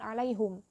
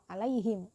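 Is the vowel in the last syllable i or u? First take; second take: u; i. First: The last syllable is said with a u vowel. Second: The last syllable is said with an i vowel. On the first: The speaker calls it wrong. "bukan alaihum" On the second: The speaker calls it right. "setelahnya itu dibacanya juga kasroh"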